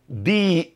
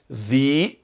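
First: It begins with a plain d sound. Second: It begins with a soft th sound.

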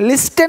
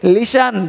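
First: The t is sounded in the middle. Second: The t is silent in the middle. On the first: The speaker calls it wrong. "लिस्टन नहीं बोलते" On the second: The speaker calls it right. "बोलते लिशन"

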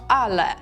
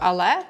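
First: The stress is on the first syllable. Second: The stress is on the second syllable. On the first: The speaker calls it right. "Акцент на першу а" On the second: The speaker calls it wrong. "щоб не казати польською але"

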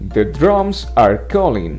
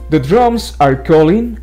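First: The words are read at a slower pace. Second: The words are read at a faster pace.

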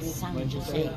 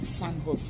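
First: Jose begins with a J sound. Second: Jose begins with an H sound. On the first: The speaker calls it wrong. "You don't say San Jose" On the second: The speaker calls it right. "The J is pronounced with H"

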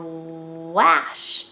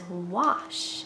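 First: The vowel is a regular A sound, not 'ah'. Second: The vowel is an 'ah' sound like O. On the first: The speaker calls it wrong. "so it should say wash" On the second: The speaker calls it right. "but it says wash"

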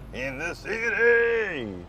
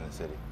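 First: The phrase is yelled loudly. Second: The phrase is said at normal speaking volume.

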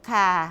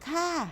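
First: The word is said with a low tone. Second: The word is said with a rising tone. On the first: "รูปเอกเสียงเอก" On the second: "เสียงจัตวา"

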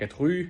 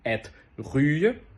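First: The r sound is barely heard. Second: The r sound is strongly exaggerated. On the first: "в такому реальному данському ритмі" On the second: "Я зараз теж його сильно виділяв"

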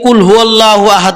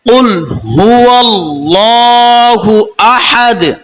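First: The final d ends flat with no bounce. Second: The final d is released with a slight bounce. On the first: The speaker calls it wrong. "আমরা অনেকে কুল হুয়াল্লাহু আহাদ বলি, এভাবে পড়বো না" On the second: The speaker calls it right. "আহাদ লাস্টটা কলকলা আছে, মানে একটু ধাক্কা দিতে হবে"

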